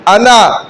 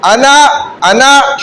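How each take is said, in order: First: Said in the usual way. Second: अना, अना stretched out slowly, each vowel held long; slow drawn-out recitation. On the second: Shown as a demonstration. Teacher showing students how to recite, slow and drawn out. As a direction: draw out अना, अना slowly like a drill. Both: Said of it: "उंगली दिखाकर इस तरह".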